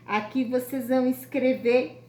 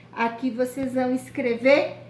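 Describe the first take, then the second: No difference in how they are said.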